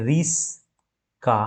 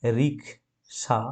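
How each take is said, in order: First: রিস্কা slowly as ris, pause, ka; slow two-piece রিস্কা with s before k; swapped consonants, split. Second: রিক্সা slowly as rik, pause, sha; low, soft, slow রিক্সা in two pieces; split into syllables. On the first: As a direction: break রিস্কা after the s, k moved last. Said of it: "এই দুটো শব্দের অদল বদল". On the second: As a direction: break রিক্সা after the k. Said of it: "রিক্সা শব্দটিকে আমরা দেখি". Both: Shown as a demonstration.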